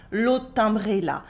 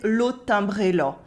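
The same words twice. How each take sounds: First: "l'autre timbré là" with a clear open A in "là"; standard A. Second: Eastern French "l'autre timbré là", là nearing "lo"; slight eastern France accent on "l'autre timbré là"; rural eastern French accent. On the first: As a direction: say "là" with a plain A to close "l'autre timbré là". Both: Shown as a demonstration. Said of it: "the A sounds more like an O".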